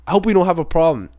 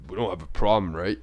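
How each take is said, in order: First: Non-confrontational. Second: Low, quiet mock challenge; confrontational tone. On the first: Retold or imitated. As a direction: friendly, open retold peace offer. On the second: Shown as a demonstration. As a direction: drop low and softer, as a veiled threat. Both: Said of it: "he didn't say it in a tone like".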